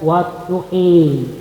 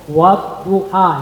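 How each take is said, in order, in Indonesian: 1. Vokal akhir condong ke i. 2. Vokal akhir adalah a terbuka.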